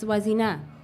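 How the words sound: The pitch falls at the end like a statement. The name is said with certainty. The speaker calls it right. "There's no question mark at the end of your name"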